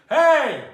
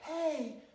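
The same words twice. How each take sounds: First: The call is strong and full, with chest power. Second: The call is light and weak, without chest power. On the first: This call would bring people running. The speaker calls it right. "there it is. There's that power" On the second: Nobody would answer this call. The speaker calls it wrong. "you would never go, hey, hey, like no one's coming if you do that"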